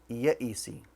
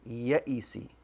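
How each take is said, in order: First: The word ends with the vowel 'i'. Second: The same.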